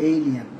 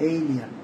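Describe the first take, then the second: The two takes are said the same way.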